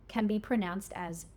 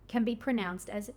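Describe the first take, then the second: Both takes have the same delivery.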